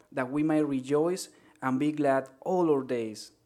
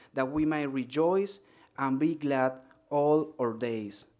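No difference in how they are said.

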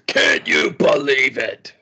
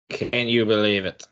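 First: It is said in an imitated announcer's voice. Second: It is said in the speaker's ordinary voice. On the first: The speaker calls it right. "in a Don West voice" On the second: The speaker calls it wrong. "I didn't say that in a Don West voice"

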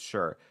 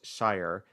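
First: It sounds like 'sure', with a reduced vowel. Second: It rhymes with 'fire', with an 'eye' vowel. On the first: The word comes at the end of a longer name. "if it's at the end of a word, it is pronounced Sure" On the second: The word stands on its own. "when you're saying just the word S-H-I-R-E, it is pronounced Shire"

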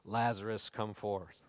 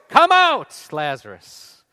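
First: It is said in a quiet, mild voice. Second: It is shouted in a loud voice.

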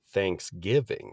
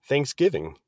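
First: It is said slowly and drawn out. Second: It is said at normal speed.

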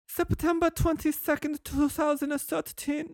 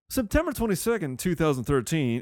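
First: It is read in a put-on Asian accent. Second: It is read in the speaker's normal voice.

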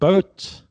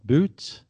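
First: The vowel is an 'oh' sound. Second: The vowel is a long 'oo' sound. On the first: This is the older pronunciation. "B-O-O-T was said boat" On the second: This is the modern pronunciation. "not boot"

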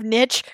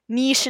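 First: The word is said in a plain English way. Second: The word is said in a French-influenced way. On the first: "instead of" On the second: "You're the reason why we say"

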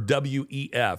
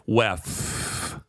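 First: It is spelled out as separate letters. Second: It is said as one word. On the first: This is not how insiders say it. "They don't say World Economic Forum or WEF" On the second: This is how insiders say it. "They say Weff. that F, you know, feels like it's dragged out"

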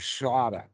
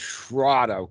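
First: The word has a very soft R sound. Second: The word has a hard R sound. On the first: This is the Pali pronunciation. "in the Pali, it is a very soft R" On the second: This is the Sanskrit pronunciation. "in the Sanskrit language, it is shrada ... Hard R"

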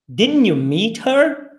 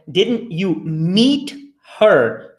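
First: It is said at a faster pace. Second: It is said at a slower pace.

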